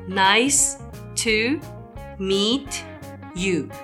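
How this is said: Each word is separated by a short break.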